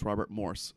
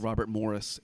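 First: The surname is said with one syllable. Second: The surname is said with two syllables. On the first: The speaker calls it right. "and it's" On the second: The speaker calls it wrong. "I used to call"

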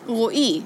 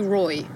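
First: The name is said with a Hebrew pronunciation. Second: The name is said with an English pronunciation. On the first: "you say it Roi in Hebrew" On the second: "You can say Roy"

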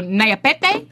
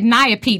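First: The name is pronounced with Spanish-like sounds. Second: The name is pronounced with American English sounds. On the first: The speaker calls it right. "try to pronounce it like Spanish" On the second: The speaker calls it wrong. "he said that I pronounced his name like an American"

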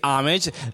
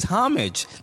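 First: The word has an American pronunciation. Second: The word has a British pronunciation. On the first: "the American way to say it is homage" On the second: "The British way to say it is homage"

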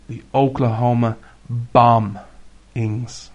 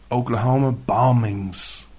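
First: It is said with strong, forceful emphasis. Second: It is said plainly, without extra emphasis.

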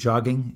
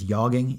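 First: The word begins with a hard J sound. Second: The word begins with a soft Y sound. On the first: The speaker calls it wrong. "If you pronounce it jogging, you're wrong" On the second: The speaker calls it right. "a soft J"

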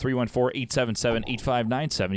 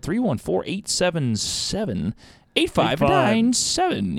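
First: It is read in a flat, plain way. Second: It is read with lively, varied inflection.

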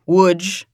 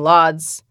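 First: The name is said with native Polish sounds. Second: The name is said with English-style sounds. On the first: The speaker calls it right. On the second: The speaker calls it wrong.

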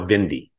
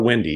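First: The name begins with a V sound. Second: The name begins with a W sound. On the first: This is the new, German-style way of saying the name. "He's decided that he's really leaning into the German thing" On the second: This is the old way of saying the name. "So he's no longer Windy"

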